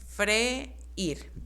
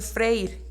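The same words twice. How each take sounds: First: The word is said as two syllables. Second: The word is said as one syllable. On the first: "al momento de yo acentuar la vocal débil ... se forman ya dos sílabas" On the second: "Si yo no le pongo acento, dice"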